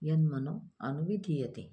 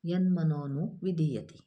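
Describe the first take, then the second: First: The words are separated and the 'a' is pronounced. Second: The words run together and the 'a' is dropped. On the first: "आपण ज्यावेळेस तोडून तोडून शब्द म्हणतो त्यावेळेस आपल्याला तिथं अचा उच्चार करणं पर्याप्त आहे" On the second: "पूर्ण ओळ जर म्हटलं तर अचा उच्चार लुप्त होतो"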